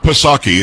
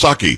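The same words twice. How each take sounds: First: "Psaki" said puh-SAH-kee, with the P sounded; the wrong "Psaki", with an extra puh in front; P wrongly pronounced. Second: "Psaki" said SAH-kee, starting on S; the corrected "Psaki", P dropped completely; silent P. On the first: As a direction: sound the P in "Psaki" as its own syllable. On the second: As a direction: say "Psaki" with no puh before it. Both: Shown as a demonstration. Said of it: "You didn't pronounce the P".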